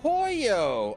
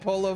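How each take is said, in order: First: The middle consonant is a Y sound. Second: The middle consonant is a plain L sound. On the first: The speaker calls it right. "double L in Spanish is a Y" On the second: The speaker calls it wrong. "I was reading it as if it was in English"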